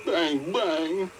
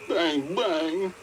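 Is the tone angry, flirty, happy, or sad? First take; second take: sad; sad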